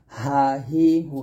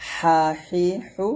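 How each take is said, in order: First: Said in the usual way. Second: হা হি হু with a thin, pressed h, slow. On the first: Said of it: "এরকম". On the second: Shown as a demonstration. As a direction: squeeze each হা হি হু thin and tight. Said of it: "চিকুন করে চাপ দিয়ে বলতে হবে".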